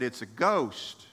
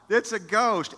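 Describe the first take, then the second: First: Said in the usual way. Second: Higher, louder, hammed-up panic; mock frightened cry. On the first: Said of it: "And they cried out in fear". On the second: Preacher acting out the disciples seeing a ghost, mock terrified cry. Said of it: "they cried out".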